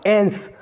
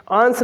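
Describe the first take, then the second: First: एंस with an open "e" vowel, as in "ens"; correct pronunciation. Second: आंस with a long "aa" vowel, as in "aans"; wrong pronunciation. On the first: Teacher shows students how the ending is said, एंस as "ens". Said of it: "इसका pronunciation क्या होगा". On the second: Teacher shows students the mistaken ending, आंस with long "aa". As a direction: say आंस as "aans", not "ens". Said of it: "आंस नहीं, एंस". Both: Shown as a demonstration.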